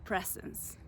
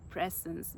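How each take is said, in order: First: Breathy whisper, voice dropping away. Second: Said in the usual way. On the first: Real, not acted. Searching for the word, she whispers it.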